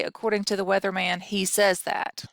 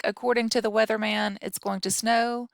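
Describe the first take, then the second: First: Mock the redundant phrasing, slowing on "says"; wrong version. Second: Said in the usual way. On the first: Shown as a demonstration. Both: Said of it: "you would not say".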